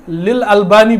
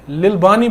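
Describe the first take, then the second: First: The name is said with 'al' before 'bani'. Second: The name is said without 'al' before 'bani'. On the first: The speaker calls it right. "लिल अलबानी बोलना है" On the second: The speaker calls it wrong. "लिल बानी बोल रहा है ये इंजीनियर"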